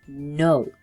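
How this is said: It is said in a stern, harsh tone.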